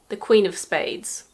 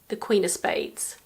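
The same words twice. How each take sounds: First: The word 'of' is pronounced in full. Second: The word 'of' is reduced to a weak sound. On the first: "we could say" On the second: "Or you could say"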